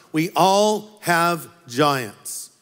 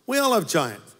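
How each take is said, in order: First: "We all have giants" drawn out slowly, leaning on "all"; slow emphatic point. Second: Said in the usual way. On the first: Real, not acted. Preacher giving point one to the congregation, slow and weighty. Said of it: "stated point, then repeated". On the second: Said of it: "repeated at normal pace".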